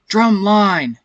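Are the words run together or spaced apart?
spaced apart. The words are spaced apart and clearly overdone. The speaker calls it right. "you have to kind of space out the words differently"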